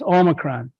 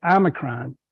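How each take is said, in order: First: Omicron said with a long O, "OH-mi-cron"; Greek pronunciation. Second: Omicron said as "AH-mi-cron"; alternative pronunciation. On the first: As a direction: open Omicron on a clear "oh" vowel. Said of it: "or as some people like to say". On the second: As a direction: open Omicron on an "ah" vowel, dropping softer. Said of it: "some people like to say". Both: Shown as a demonstration.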